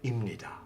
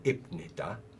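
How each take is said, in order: First: The p sound blends into a nasal sound. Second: The first syllable ends with a clear p sound. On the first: The speaker calls it right. "assimilates with the uh, next consonant" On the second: The speaker calls it wrong. "no one will say 입니다"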